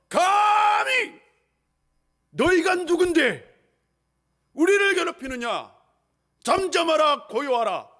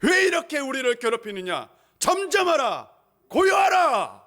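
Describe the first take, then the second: First: High, slow, thunderous command fading at the end; commanding rebuke. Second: Builds from firm to a high shouted command; commanding rebuke. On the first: Jesus stares at the sea and commands it, slow and loud. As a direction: draw out the first word, then command. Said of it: "딱 바다를 응시하시며". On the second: Jesus commands the sea to be still, building to a shout. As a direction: rise to a ringing command. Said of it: "꾸짖습니다". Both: Acted.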